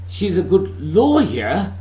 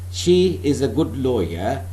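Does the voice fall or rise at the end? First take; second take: rise; fall. First: The voice rises at the end. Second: The voice falls at the end. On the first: The speaker doubts it and is asking. "that means you are suspecting whether she is" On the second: It is a simple statement. "there is no question mark. That is a declarative, declarative statement, a simple statement"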